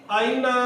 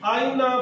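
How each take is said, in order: Both takes have the same delivery.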